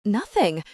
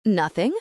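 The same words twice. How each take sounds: First: "Nothing" with a falling end; firm statement. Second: "Nothing" rising at the end; questioning echo. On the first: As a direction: decline with "Nothing", dropping at the end. Declining the offer to cook dinner. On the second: Housekeeper queries the answer. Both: A narrator's reading.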